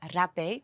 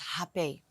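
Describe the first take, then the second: First: The word is pronounced with a Western r sound. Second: The word is pronounced with a Brazilian r sound. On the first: "I say it in a very Western way" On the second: "actually the way they pronounce it is"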